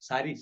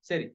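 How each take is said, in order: First: The first vowel is a full, broad a. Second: The first vowel is light, between a and ae. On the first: The speaker calls it wrong. "அப்படி உச்சரிக்க மாட்டோம்" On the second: The speaker calls it right. "லைட்டா சாணாக்கும், சேனாக்கும் இடையில"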